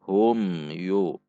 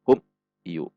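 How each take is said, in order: First: The m sound is short and clear. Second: The m sound is cut with a jerk. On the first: The speaker calls it right. "tidak boleh dibaca panjang namun dibaca jelas" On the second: The speaker calls it wrong.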